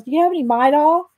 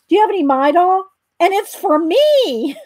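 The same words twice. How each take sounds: First: Said in the usual way. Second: Excited. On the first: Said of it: "how'd he say it". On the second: Retold or imitated. Excited toothache sufferer asking the druggist for Midol, thrilled. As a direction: imitate a thrilled customer proudly announcing himself. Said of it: "'cause he was so excited that it worked".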